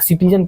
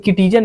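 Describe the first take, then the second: First: The word begins with an s sound. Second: The word begins with a k sound. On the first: The speaker calls it right. "सिटीजन पढ़ा गया है" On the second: The speaker calls it wrong. "इसको किटीजन नहीं बोला गया"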